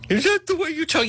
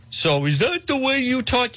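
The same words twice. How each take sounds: First: Higher mock listener. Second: Mock listener. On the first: Mocking a listener's complaint again. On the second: Mocking a listener's complaint.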